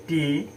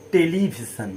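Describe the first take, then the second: First: television broken into four parts, a pause after each; syllable by syllable. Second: Said in the usual way. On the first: Shown as a demonstration. (Television চার ভাগে ভেঙে, থেমে থেমে) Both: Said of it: "এখানে চারটা word আছে".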